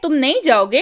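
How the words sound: It is said as a rising question.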